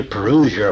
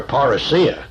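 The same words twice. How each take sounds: First: Parousia as puh-ROO-zhuh; English form of parousia. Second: Parousia as par-uh-SEE-uh; Greek form of parousia. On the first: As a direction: say parousia Anglicized, stressed on ROO with a zh sound. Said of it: "use the English form". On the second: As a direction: say parousia Greek-style, with the stress late on SEE. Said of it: "put the emphasis upon the last syllable". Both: Shown as a demonstration.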